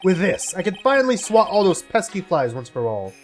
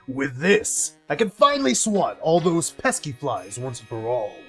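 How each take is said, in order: First: It is read in the speaker's natural voice. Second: It is said in a put-on character voice.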